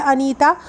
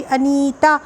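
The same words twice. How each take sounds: First: Said in the usual way. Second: Anita with नी drawn out and weighted; stress on नी. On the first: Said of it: "Anita में वजन कहाँ पे लग रहा है". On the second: Shown as a demonstration. Teacher showing students word stress, stressing नी in Anita. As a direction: lean on the long नी in the middle of Anita. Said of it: "नी में मेहनत करना पड़ रही है".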